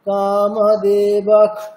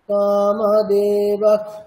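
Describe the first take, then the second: First: The final sound is a full kh. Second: The final sound is only a partial kh. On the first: The word is said on its own. "একটা পূর্ণ খকারের উচ্চারণ কেমন হয়?" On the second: The visarga joins with the next sound. "মানে পুরোপুরি কিন্তু খকার হচ্ছে না"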